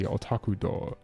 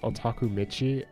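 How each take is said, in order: First: The second word is pronounced as 'do'. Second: The second word is pronounced as 'michi'. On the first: "it can be said as door" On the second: "or michi"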